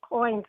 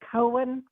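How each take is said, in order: First: Coin is said with a standard pronunciation. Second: Coin is said with a Southern pronunciation. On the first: "I believe I'm saying it right" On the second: "I'm from the South, so I grew up saying Cohen"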